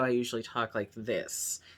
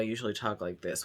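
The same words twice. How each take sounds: First: The voice is pitched slightly higher. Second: The voice is pitched lower. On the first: This is how the speaker talks on camera. "It's just slightly higher" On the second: This is how the speaker talks off camera. "when I'm not doing a video"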